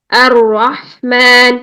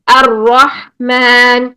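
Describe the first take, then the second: First: الرحمن drawn out slowly, ra held long; drawn-out tajweed recitation. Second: الرحمن recited slowly with a full heavy ra; slow heavy-ra recitation; Quranic recitation. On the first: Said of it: "را غلط ہے". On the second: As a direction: stretch الرحمن in tajweed style. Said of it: "ہم بسم اللہ الرحمن الرحیم پڑھتے ہیں". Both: Shown as a demonstration.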